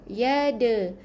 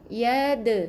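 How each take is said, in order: No difference in how they are said.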